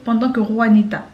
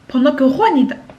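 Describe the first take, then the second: First: The pitch stays at a normal level. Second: The pitch is raised on the phrase. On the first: The speaker calls it right. "Pourquoi je dis pas juste" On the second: The speaker calls it wrong. "quand j'élève un peu mon ton"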